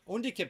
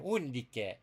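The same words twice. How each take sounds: First: The name is said with an English accent. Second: The name is said with an Italian-like accent. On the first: "is an English name" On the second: "In Latin, you pronounce it more like an Italian"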